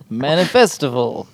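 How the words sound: It is said in a put-on elf voice.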